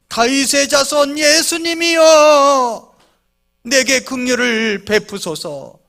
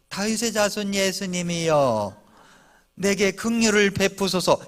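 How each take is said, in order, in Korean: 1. 불안하고 절박한 목소리로 외칩니다. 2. 부드럽고 무심한 목소리로 말합니다. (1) "얼마나 애가 타면서 소리를 질렀겠습니까?" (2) "내 처지가 어떤가를 잘 모르는 목소리예요"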